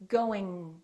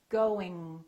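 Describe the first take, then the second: Both takes have the same delivery.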